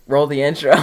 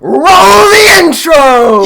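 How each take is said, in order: First: It is said with low energy. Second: It is said with high energy.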